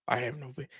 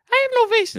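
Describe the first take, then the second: First: Said in the usual way. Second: Mock-squeaky, high and louder; bassless voice. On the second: Host jokes about his own thin voice, comically high-pitched. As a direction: pipe it up high with no bass at all. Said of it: "bass in this voice".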